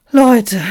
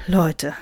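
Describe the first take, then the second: First: Loud, high appeal; calling for order. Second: Said in the usual way. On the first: Acted. Moderator tries to mediate the mob, calling out. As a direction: call out over the squabble. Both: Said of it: "versuchte er zu vermitteln".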